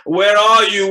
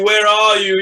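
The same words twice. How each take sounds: First: Loud searching call; anxious loud call. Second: Loud repeated call; anxious loud call repeated; calling again. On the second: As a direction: call out once more, loud. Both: Acted. Calling out for the servant.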